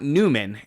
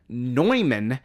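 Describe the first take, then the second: First: The first syllable sounds like 'new'. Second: The first syllable sounds like 'noy'. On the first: The speaker calls it wrong. "not Newman" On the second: The speaker calls it right. "The mathematician is John van Neumann"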